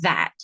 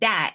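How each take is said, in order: First: The first sound is a th sound. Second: The first sound is not a th sound. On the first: The speaker calls it right. "instead of that" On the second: The speaker calls it wrong. "or they say that"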